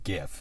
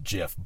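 First: The word starts with a hard G sound. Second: The word starts with a soft G sound. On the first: It matches the G in graphics. The speaker calls it right. "It's a hard G, graphics" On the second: This is how the creator says it. The speaker calls it wrong. "the creator of whatever it is called says it's GIF"

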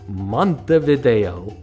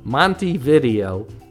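First: It is said with a showy, romantic flair. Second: It sounds plainly like 'Monty video'. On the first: This is how outsiders romantically say it. The speaker calls it wrong. "we mispronounce it with flair" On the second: This is how the locals say it. The speaker calls it right. "The locals call it Montevideo, making it sound more like an 80s shop where a guy named Monty rents VHS tapes"

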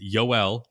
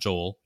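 First: The name begins with a Y sound. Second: The name begins with a J sound. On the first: The speaker calls it right. "It's Yoel" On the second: The speaker calls it wrong. "not Joel"

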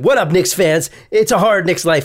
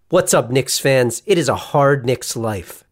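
First: The greeting is rushed at a fast pace. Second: The greeting is delivered at a slower pace. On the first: The speaker calls it wrong. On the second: The speaker calls it right.

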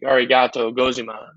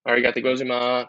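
First: The phrase is said at a slow pace. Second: The phrase is said at a fast pace.

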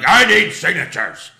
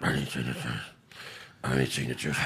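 First: The voice is loud and strongly projected. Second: The voice is weak, quiet and mumbled. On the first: This is how the person used to sound. "in the past, he'd be like" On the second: This is how the person sounds now. "he doesn't project like he used to"

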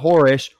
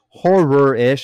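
First: The word is slurred and poorly enunciated. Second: The word is clearly and carefully enunciated. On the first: The speaker calls it wrong. "not horror-ish" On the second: The speaker calls it right. "I should enunciate better"

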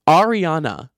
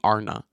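First: The name is said with all its syllables. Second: The name is clipped to two syllables. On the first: The speaker calls it right. "I need to fully pronounce that" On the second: The speaker calls it wrong. "I don't know why I say her name Arna"

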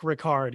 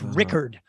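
First: The name is said to rhyme with Picard. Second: The name is said not rhyming with Picard. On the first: The speaker calls it wrong. "kind of like Jean-Luc Picard of Star Trek Next Generation" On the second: The speaker calls it right. "it's Rickard"

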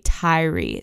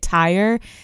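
First: The name is said as two syllables. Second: The name is said as one syllable. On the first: The speaker calls it right. "it's actually Tyree" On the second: The speaker calls it wrong. "I have been pronouncing it Tyre"

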